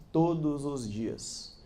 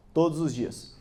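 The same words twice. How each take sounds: First: Drawn out very slowly and softer; slow, quiet "todos os dias", each word weighed; slow emphasis. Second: Said in the usual way. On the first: Shown as a demonstration.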